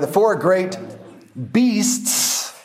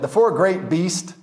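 First: The final S sound of beasts is clearly pronounced. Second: The final S sound of beasts is left off. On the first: The speaker calls it right. "stress that last S that's supposed to be there" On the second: The speaker calls it wrong. "or you sound unintelligent"

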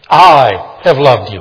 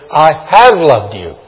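First: The stress is on the word I. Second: The stress is on the word have. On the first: Others do not love, but this one does. "Others don't, but I have loved you" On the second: The love was in the past and continues. "Past tense, and I continue to love you"

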